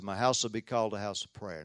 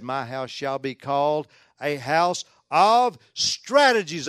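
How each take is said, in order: First: Said in the usual way. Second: Drawn-out, louder, tongue-in-cheek scripture quote; mock proclamation. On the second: Preacher misquoting Jesus to tease the church, mock-grand proclamation. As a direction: stretch out the wrong word with mock grandeur.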